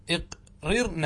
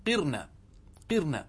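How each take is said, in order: First: اقررن split into iq, rir, na; syllable-by-syllable اقررن with a pause after iq; full imperative form. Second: قرن said straight off as qirna; short, unbroken qirna for قرن; direct contracted form. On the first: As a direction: sound out both r's in اقررن. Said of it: "هذا الأمر تستطيع أن تقول". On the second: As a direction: give قرن in one go, with a single r. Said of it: "مباشرة". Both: Shown as a demonstration.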